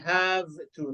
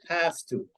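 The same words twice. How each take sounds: First: The word have ends in a v sound. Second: The word have ends in an f sound. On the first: The speaker calls it wrong. "Don't say have to" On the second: The speaker calls it right. "Say have to. يبقى الفي هنا تنطق فا"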